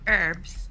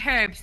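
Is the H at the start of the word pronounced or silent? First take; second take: silent; pronounced. First: The word begins with no H sound. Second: The word begins with an audible H sound. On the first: This is how the other group says it. The speaker calls it wrong. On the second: This is how the speaker's own group says it. The speaker calls it right.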